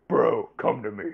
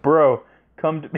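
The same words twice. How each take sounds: First: Softer mock call, falling at the end. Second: Shouted call. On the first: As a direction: drop it down and call again softly. Repeats the call more quietly. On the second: Pretend. Calling out to his bro.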